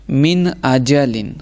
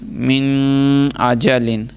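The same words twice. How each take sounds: First: The n is pronounced clearly without nasal hum. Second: The n is held with a nasal hum. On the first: The speaker calls it right. "जाहिर करके पढ़ेंगे" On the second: The speaker calls it wrong. "ये मैंने गुन्ना करके पढ़ा है"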